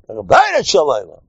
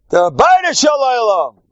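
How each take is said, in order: First: Said in the usual way. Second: High, ringing proclamation; emphatic shout. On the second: Real, not acted. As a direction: shout it out as the one true answer. Repeats the answer as a proclamation.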